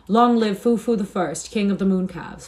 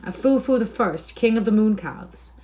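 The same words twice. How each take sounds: First: Acted mob shout, stretched and projected; roaring shout. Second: High, excited cry; high-pitched heckler's suggestion, not full scream; mild shriek. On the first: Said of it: "a roaring shout went up". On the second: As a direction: pipe up with a raised voice. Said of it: "A tinker shrieked out". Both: A narrator's reading.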